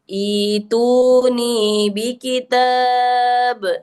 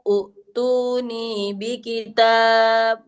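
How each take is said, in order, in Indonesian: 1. Kata pertama dimulai dengan bunyi 'i'. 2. Kata pertama dimulai dengan bunyi 'u'. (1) "cara membacanya ituni bi kitab" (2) "Bukan utuni bi kitab"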